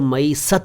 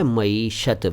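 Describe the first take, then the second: First: The word is said with a plain s sound. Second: The word is said with an sh sound. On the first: The speaker calls it wrong. "इसको मईसत ना कहें" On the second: The speaker calls it right. "यह है मईशत"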